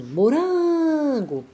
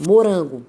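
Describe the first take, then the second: First: "morango" called out, RAN stretched long and high; calling out the word. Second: Said in the usual way. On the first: Shown as a demonstration. Teacher calls the word to find its strong syllable, "morango" with RAN drawn out high. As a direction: call "morango" slowly, holding a high "ran". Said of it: "Se eu disser assim".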